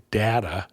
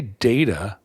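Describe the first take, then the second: First: "data" with a short A; data as DAT-uh. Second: "data" with a long A; data as DAY-tuh. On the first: Host showing how others at home say it, "data" as DAT-uh. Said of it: "other people say data". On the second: Host giving own pronunciation, "data" as DAY-tuh. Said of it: "I say data". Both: Shown as a demonstration.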